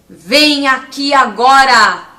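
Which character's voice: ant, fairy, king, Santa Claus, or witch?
king. It is said like an arrogant king.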